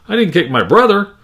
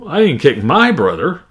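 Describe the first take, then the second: First: The stress falls on the word brother. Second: The stress falls on the word my. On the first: The sister was kicked instead. "or even brother" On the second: A friend's brother was kicked instead. "Another way, uh, my"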